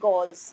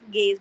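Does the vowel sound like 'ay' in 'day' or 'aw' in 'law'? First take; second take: aw; ay. First: The vowel sounds like aw in law. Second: The vowel sounds like ay in day. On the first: The speaker calls it wrong. "not gauze" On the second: The speaker calls it right. "the pronunciation is gaze"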